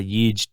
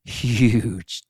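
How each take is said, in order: First: "huge" echoed as "yuge"; low, soft "huge" without the H; Y in place of H. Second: "huge" stretched long, H kept; drawn-out "huge". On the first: Retold or imitated. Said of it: "replace it with a Y". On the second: Acted. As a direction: linger slowly on "huge". Stretching the debated word.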